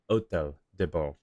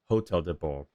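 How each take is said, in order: First: The name is said with a French-sounding pronunciation. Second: The name is said with an English-sounding pronunciation.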